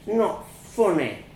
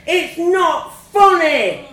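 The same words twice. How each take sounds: First: Put-on small child's wounded whimper. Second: Put-on high, loud, drawn-out child's scream. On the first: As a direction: protest weakly, whimpering. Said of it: "I whimpered". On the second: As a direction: scream it slowly in outrage. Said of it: "I screamed". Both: A narrator's reading.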